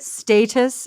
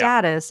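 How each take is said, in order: First: "status" with a long A, STAY-tus; British pronunciation. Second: "status" with a short A, STAT-us; American pronunciation. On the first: Host showing the British guest's word, British pronunciation. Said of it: "as you would say". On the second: Host giving her own version, American pronunciation. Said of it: "as I would say". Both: Shown as a demonstration.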